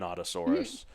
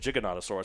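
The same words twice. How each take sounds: First: The first G is hard, as in 'go'. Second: The first G is soft, as in 'gigantic'. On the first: This is how the film says the name. "it said" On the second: This is how the speaker has always said the name. "I always said Giganotosaurus because it's like gigantic"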